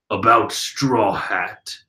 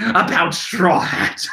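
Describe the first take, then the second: First: Deep Katakuri voice. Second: Brulee's voice. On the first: Reader voices Brulee's line in Katakuri's deep voice by mistake. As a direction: rumble it like the big brother. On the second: Reader rewinds and redoes Brulee's line in her own voice. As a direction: start over as the sister. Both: Retold or imitated. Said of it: "That's Brulee talking".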